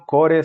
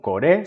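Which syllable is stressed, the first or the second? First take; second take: first; second. First: The stress is on the first syllable. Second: The stress is on the second syllable. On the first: The speaker calls it wrong. "No son core" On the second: The speaker calls it right. "se acentúan en la segunda sílaba"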